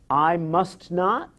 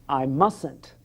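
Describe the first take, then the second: First: It is said in full as separate words. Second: It is said as one contracted word. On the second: "becomes I mustn't"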